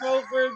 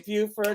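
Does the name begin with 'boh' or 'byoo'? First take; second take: boh; byoo. First: The name begins with a 'boh' sound. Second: The name begins with a 'byoo' sound. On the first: This is how the speaker says it. "and I say Beaufort" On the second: This is how the other person says it. "You say Buford"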